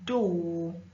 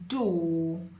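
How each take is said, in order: First: It is said in a British accent. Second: The same.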